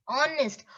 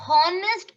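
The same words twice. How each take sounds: First: "honest" said as on-est; silent H. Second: First "honest" as hon-est with a breathed h; H sounded. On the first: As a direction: say "honest" starting on the vowel. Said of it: "It is honest". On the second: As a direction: say "honest" wrongly, h pronounced. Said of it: "Honest is wrong". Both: Shown as a demonstration.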